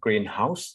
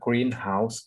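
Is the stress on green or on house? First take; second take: house; green. First: The stress falls on house. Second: The stress falls on green. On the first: A house painted green. "คือมันเน้นที่พยางค์หลังเนี่ยนะครับ" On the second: A building used for growing plants. "การออกเสียงเน้นหนักในคำนามผสมมักจะเน้นที่พยางค์แรกนะครับ"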